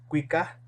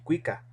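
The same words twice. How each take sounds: First: The word ends with a breathy h sound. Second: The word ends on a plain vowel. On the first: It means they sing. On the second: It means he or she sings.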